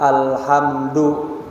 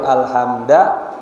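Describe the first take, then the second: First: The word ends in the vowel u. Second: The word ends in the vowel a. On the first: The speaker calls it right. "Maka kita baca alhamdu" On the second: The speaker calls it wrong. "enggak boleh alhamda"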